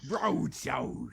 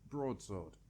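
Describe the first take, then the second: First: The word is said in an exaggerated, dramatic way. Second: The word is said in a plain, ordinary way.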